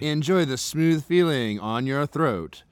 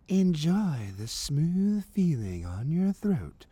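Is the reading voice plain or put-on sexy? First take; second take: plain; sexy. First: It is read in a plain, ordinary voice. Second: It is read in a put-on, seductive voice.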